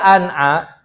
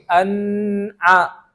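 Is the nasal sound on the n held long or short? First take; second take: short; long. First: The nasal sound on the n is brief. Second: The nasal sound on the n is lengthened. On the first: The speaker calls it right. "gunnahnya gunnah yang nakisok kurang" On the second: The speaker calls it wrong. "Kalau ditambah gunnahnya bakal jadi an'a. Itu salah"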